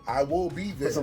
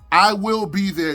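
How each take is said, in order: First: It sounds unsure and lacking conviction. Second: It sounds confident and full of conviction.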